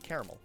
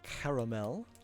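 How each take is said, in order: First: The word is pronounced loosely, with syllables slurred. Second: The word is pronounced carefully, every syllable clear. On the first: "sometimes I'm just a little bit linguistically sloppy" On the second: "Sometimes I am in an enunciation caramel"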